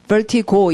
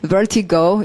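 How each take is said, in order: First: It is said with Korean-style pronunciation. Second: It is said with English-style pronunciation. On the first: The speaker calls it wrong. "이러지 마시고" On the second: The speaker calls it right. "이렇게 읽어주고 우리는 영어를 하고 있으니까"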